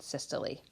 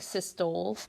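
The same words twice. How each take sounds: First: It is said with three syllables, ending in lee. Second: It is said with two syllables, ending in tole. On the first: The speaker calls it right. "they pronounce it systole" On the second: The speaker calls it wrong. "It looks like systole"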